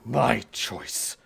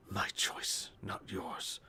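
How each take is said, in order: First: Loud, menacing declaration; forceful outburst. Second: Hushed, whispered mumble; muttering to himself. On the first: Man reaching towards his taunter, loud and forceful. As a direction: throw the words out hard and loud. Attacker reaches out, snaps back. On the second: Man lost in gibberish, muttering coherent scraps to himself. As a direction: mutter it under your breath, half-coherent. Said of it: "you catch little coherent lines". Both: Acted.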